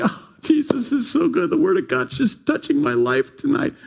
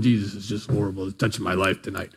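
First: High, gushing praise of a delighted listener; gushing happy churchgoer. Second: Lower, softer, fast sour mumble; grumbling sour churchgoer. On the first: Happy churchgoer gushing over the sermon, high and bright. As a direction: gush it like the happiest pew-sitter. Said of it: "some people are just like". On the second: Sour listener grumbling through the same sermon, low and quick. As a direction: grumble it like someone who hates every word. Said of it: "The other person's going". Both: Retold or imitated.

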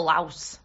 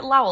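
First: LAOS said with a final s, "louse"; pronunciation with S. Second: LAOS said as "Lao", final s silent; pronunciation without S. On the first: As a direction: try Laos ending on a clear s. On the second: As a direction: try Laos as "laow", rhyming with cow. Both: Shown as a demonstration. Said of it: "I don't know how to say it".

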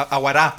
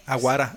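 First: Aguará with the last syllable punched louder; aguará, stressed on its last A; stress on final A. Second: Said in the usual way. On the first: Shown as a demonstration. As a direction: hit the end of aguará, accent on the final á. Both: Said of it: "perdón, así con acento".

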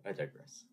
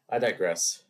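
First: Quiet. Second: Said in the usual way. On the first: Shown as a demonstration.

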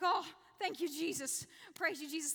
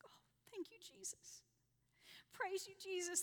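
First: Louder, relieved burst of thanks; joyful relief. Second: Hushed, breathless whisper of thanks; awed whisper. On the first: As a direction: blurt it out gratefully, a touch louder. Relief as the step held. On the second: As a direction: whisper it as if you barely dare believe it. Second step held, awed thanks. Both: Retold or imitated.

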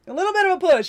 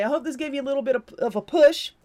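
First: Said again clearly and louder; clean retake. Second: Tripping over the words; tongue-tied, fumbling the phrase; stumbling. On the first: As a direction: fix the stumble, say it cleanly. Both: Real, not acted. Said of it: "See, I can't even speak".

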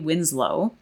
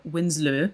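First: Winslow said the English way, ending in "loh"; anglicised pronunciation. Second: Winslow with a rounded "luh" ending, Danish-style; attempted Danish pronunciation. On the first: Host naming a Danish anatomist, Winslow in anglicised pronunciation. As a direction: say Winslow with a plain English long o at the end. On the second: Host unsure of the Danish name, Winslow in attempted Danish pronunciation. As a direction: try Winslow the Danish way, rounding the last vowel. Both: Shown as a demonstration. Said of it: "not great at Danish pronunciation".

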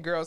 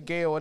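First: Said in the usual way. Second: Put-on girl said as Gail, with a long ay vowel and no r, in a Nigerian accent. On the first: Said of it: "instead of saying girl". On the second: Shown as a demonstration. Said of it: "say Gail".

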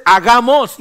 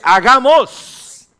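First: Said in the usual way. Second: Very slow, high and loud; God speaking. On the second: Retold or imitated. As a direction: stretch out Hagamos like a proclamation. (Dios dice Hagamos, lento, agudo y fuerte) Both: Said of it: "Dios dice".

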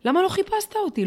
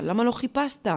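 First: The plea pushed much higher and louder on לא; rising plea. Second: A mild retold plea, slightly higher; pleading question. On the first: Retold or imitated. Daughter pressing her father for answers, a higher, louder plea. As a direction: break upward, demanding on לא. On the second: Daughter asking her dying father why, in a mild plea. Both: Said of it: "מבקשת ממנו תשובות".

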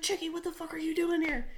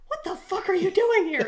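First: Higher-pitched but not shouted; toned-down incredulous question; retold disbelief. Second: High, loud disbelief with a laugh; hammed-up shout of shock; mock startled yell. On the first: Soldier recognizes his friend from home, mild mock disbelief. Same outburst repeated with the name. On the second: Soldier finds his friend hiding with beer, mock outraged yell.

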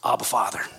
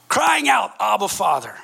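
First: Said in the usual way. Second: Raised, emphatic call that drops on the last words; crying out. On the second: Shown as a demonstration. Preacher stressing how believers call to God, crying out. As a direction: cry it out, high and loud at first. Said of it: "prompting us to call out".

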